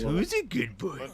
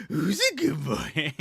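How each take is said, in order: First: Slow, high, sing-song praise to a pet; SpongeBob pet voice. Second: Slow sing-song, a bit louder; SpongeBob pet voice. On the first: Imitating SpongeBob praising Gary, slow sing-song coo. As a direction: coo it slowly like SpongeBob to his snail. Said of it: "He says that to Gary". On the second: SpongeBob praising his pet, slow goofy sing-song. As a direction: stretch it out with a goofy face. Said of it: "he makes the stupidest face and he goes". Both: Retold or imitated.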